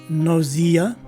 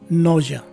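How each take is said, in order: First: The middle has a z sound and long e. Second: The middle has a zh sound, no long e. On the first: "the letter S takes a Z sound as in zebra, and the following letter E is a long E" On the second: "the letter S takes a Z sound, the letter E is dropped and replaced with the letter H"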